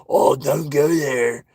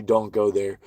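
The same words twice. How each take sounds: First: Slow, drawn-out mock pleading; mocking warning. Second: Said in the usual way. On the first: Mimicking those who wanna convince you, slow mocking plea. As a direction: stretch it out in mock concern.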